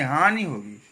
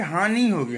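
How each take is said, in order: First: हानि with a short final i; correct pronunciation. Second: हानि with a long ee ending; wrong pronunciation. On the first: Teacher correcting the slip, correct pronunciation. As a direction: end हानि on a brief vowel, lower. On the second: Teacher quoting how people say it, wrong pronunciation. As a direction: stretch the last vowel of हानि. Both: Shown as a demonstration. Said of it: "हानि नहीं".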